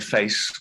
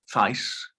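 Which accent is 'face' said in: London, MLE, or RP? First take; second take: RP; London. First: It is said in a received pronunciation accent. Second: The vowel glides toward an 'i'-like sound. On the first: "my accent is a an R P type, received pronunciation type accent" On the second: "Traditional London would be face, so more of an I type sound"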